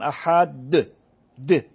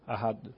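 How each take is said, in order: First: The final d is added as a separate syllable. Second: The final d is said softly, barely audible. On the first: The speaker calls it wrong. "گفتنش به این نیستش که" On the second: The speaker calls it right. "خودم میفهمم که گفتم"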